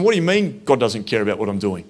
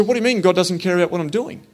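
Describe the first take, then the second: First: Said in the usual way. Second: Higher, faster, pressing the question; defensive challenge. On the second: Retold or imitated. Walker challenging the priest on his doorstep, defensive and quick. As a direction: push back at him, quicker and higher. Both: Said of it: "I went a bit defensive".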